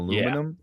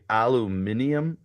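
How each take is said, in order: First: It is said the American way. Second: It is said the British way. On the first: "instead of aluminum" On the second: "British people say aluminium"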